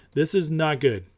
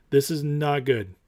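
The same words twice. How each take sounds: The two takes are said the same way.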